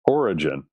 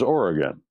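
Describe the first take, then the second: First: The G is soft, like a J. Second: The G is hard, like in go. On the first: This is how people say the name today. The speaker calls it wrong. "People call him Origen" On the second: This is how the name was said back then. The speaker calls it right. "There was no soft G. It was Oregon"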